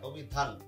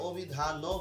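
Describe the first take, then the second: First: The word stops on the final consonant. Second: The word ends with an extra vowel sound. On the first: The speaker calls it right. "থেমে যাচ্ছি" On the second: The speaker calls it wrong. "আমি তো এখানে অভিধানও বলছি না"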